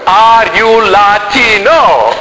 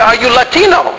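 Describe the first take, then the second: First: Each word is spoken slowly and separately. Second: The question is spoken at a normal, everyday pace.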